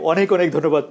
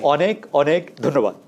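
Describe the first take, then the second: First: It is said at normal conversational speed. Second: It is said slowly and carefully.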